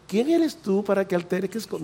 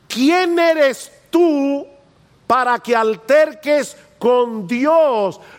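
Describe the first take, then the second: First: It is said in a mild, gentle tone. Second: It is said in a stern, rebuking tone.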